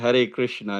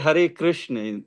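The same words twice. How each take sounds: First: Krishna ends in a short, clipped a. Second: Krishna ends in a long, drawn-out a. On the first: It is the usual greeting form. "rather than Hare Krishna" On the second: It addresses the feminine internal potency. "shall we say Hare Krishna"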